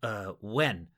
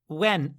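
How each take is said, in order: First: It sounds forced calm and steady. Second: It sounds scared and startled.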